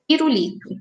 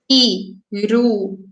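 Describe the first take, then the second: First: The word is said smoothly, as one unit. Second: The word is broken into separate syllables.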